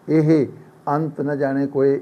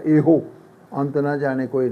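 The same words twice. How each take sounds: First: ਇਹ said short, with no o at the end, slow and careful; correct reading. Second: ਇਹੋ said with a full final o, the way people usually misread it; common wrong reading. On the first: Teacher correcting students to say ਇਹ without the o, slowly. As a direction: model ਇਹ correctly, clipped short before ਅੰਤ. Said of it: "ਨਹੀਂ". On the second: Teacher showing students the wrong ਇਹੋ, a full o sound. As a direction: demo the mistake: ਇਹੋ with a clear long o ending. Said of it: "ਆਮ ਪੜ੍ਹਦੇ ਆ". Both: Shown as a demonstration.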